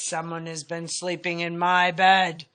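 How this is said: It is said in a great big voice.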